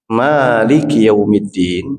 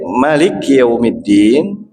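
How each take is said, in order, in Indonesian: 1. Vokal pertama pada Maliki dibaca panjang. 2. Vokal pertama pada Maliki pendek. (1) "Kalau dibaca mad" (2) "Kalau dibaca pendek"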